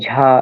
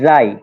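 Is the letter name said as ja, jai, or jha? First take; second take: jha; jai. First: It starts with a breathy jh, like jha. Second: It ends with an 'ee' glide, like jai. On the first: "তবে ঝা অনেকে বলে" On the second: "এর উচ্চারণটা হচ্ছে জাই"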